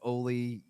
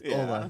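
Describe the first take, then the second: First: The name ends in an 'ee' sound. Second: The name ends in an 'ah' sound. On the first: The speaker calls it wrong. "we all pronounced it like Oli Jokinen" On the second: The speaker calls it right. "it's it's Ola"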